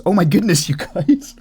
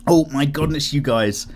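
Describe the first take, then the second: First: Higher and louder, a mock gushing "Oh my goodness"; hammed-up gush. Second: Said in the usual way. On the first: Mocking his own phrase to patrons with a higher, louder gush. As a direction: overplay the gushing on purpose. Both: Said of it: "Did I say, "Oh my goodness"?".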